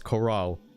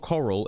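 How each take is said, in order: First: The word sounds like 'corral'. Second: The word sounds like 'coral'. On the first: The speaker calls it right. "it's corral" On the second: The speaker calls it wrong. "It's not coral"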